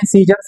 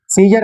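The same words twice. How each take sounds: First: सीजर्स said with a final s sound; correct scissors. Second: सीजर said with no s on the end, as the mistake; wrong singular scissor. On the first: Teacher giving students the right form, सीजर्स with s. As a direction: finish सीजर्स on a clear s. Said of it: "सीजर्स बोलते हैं". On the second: Teacher warning students off the wrong form सीजर. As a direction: stop सीजर on the r. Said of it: "सीजर नहीं बोलते हैं". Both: Shown as a demonstration.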